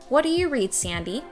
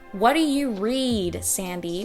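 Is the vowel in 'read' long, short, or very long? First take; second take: long; very long. First: The vowel in read is moderately lengthened. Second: The vowel in read is stretched very long. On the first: "And then I was able to bring it back" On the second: "I exaggerated it. I did it super over the top"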